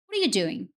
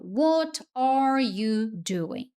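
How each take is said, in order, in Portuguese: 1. As palavras se juntam, com os sons conectados. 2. Cada palavra é dita separadamente e com clareza. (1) "como o americano normalmente fala essa mesma frase" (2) "Word por word, né? Palavra por palavra"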